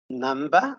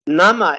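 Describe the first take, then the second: First: A B sound is heard in the middle. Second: No B sound is heard in the middle. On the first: The speaker calls it wrong. "are you sure? The same pronunciation here" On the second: The speaker calls it right. "without pronouncing the B sound because it is silent"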